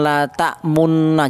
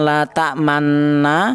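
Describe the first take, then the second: First: The vowel after m is a plain rounded u. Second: The vowel after m is a plain open a. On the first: "jangan la ta'munna" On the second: "Jangan la ta'manna"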